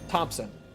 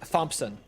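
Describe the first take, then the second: First: It begins with a plain T sound. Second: It begins with a th sound.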